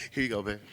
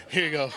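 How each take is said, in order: First: Tender. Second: Repeating it through a laugh; chuckling repeat. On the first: Retold or imitated. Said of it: "I'm like". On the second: Real, not acted. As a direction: laugh while you say it again. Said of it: "repeats the line, laughing".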